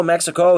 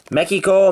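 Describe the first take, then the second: First: Said in the usual way. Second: Mexico said the Spanish way, /ˈmɛ-ki-ko/, a k sound in place of the x; Spanish-style Mexico. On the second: Shown as a demonstration. Showing viewers the Spanish way to say Mexico, said higher with a Spanish lilt. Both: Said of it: "I really pronounce the accent".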